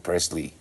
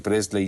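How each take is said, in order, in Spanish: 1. El nombre se dice con sonidos del inglés americano. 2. El nombre se dice con sonidos españoles. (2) "no se dice Presley"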